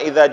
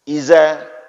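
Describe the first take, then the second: First: The middle consonant is a soft th sound. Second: The middle consonant is a z sound. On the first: The speaker calls it right. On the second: The speaker calls it wrong.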